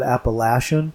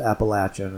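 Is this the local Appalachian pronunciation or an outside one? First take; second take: outside; local. First: It is said the way outsiders pronounce it. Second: It is said the way locals pronounce it. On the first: This is how people elsewhere in the country say it. The speaker calls it wrong. "in other parts of the country, they pronounce that Appalachian" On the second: This is how people in the region say it. The speaker calls it right. "here they call it, they pronounce it Appalachian, and so that's the proper way"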